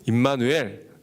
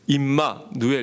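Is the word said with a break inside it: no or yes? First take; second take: no; yes. First: The word is said joined without a pause. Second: The word is split with a pause inside. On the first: It is the name meaning God with us. The speaker calls it right. "같이 붙여서 사용해야 됩니다" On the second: It could be misheard as an insult. The speaker calls it wrong. "띄어서 하면 잘못하면 욕으로 오해할 수도 있어요. 그래서 임마누엘 이렇게 하면 안 되고"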